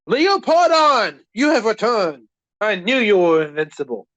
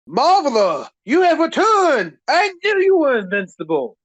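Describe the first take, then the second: First: It is said with less excitement. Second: It is said with more excitement.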